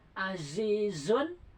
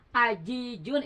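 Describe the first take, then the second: First: The consonants are hissing z sounds. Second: The consonants are j sounds. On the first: The speaker calls it right. "Kalau zai ada sopirnya" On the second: The speaker calls it wrong. "Ajijun itu jim, tertukar, merubah arti"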